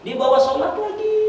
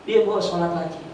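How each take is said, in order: First: Said high and urgent, pushing the line up; high emphatic repeat. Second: Said in the usual way. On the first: Shown as a demonstration. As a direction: lift the whole line high to drive it home. (ucapkan tinggi dan menekan)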